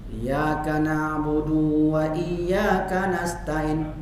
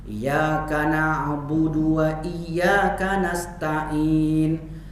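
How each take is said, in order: The two takes are said the same way.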